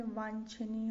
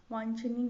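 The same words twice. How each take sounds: First: Said in the usual way. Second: वांछनीय as the faulty form, louder; wrong pronunciation. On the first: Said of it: "होगा". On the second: Shown as a demonstration. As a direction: present वांछनीय as the mistake. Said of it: "गलत है".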